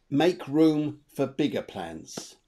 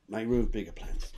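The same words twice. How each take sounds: First: "make room for bigger plans" drawn out slowly, every word weighted; slow emphatic advice. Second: Said in the usual way. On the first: Shown as a demonstration. Psychic to sitter, stressing her main advice: slow and weighty. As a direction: lay it down slowly like the key message. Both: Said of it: "That's what I would say".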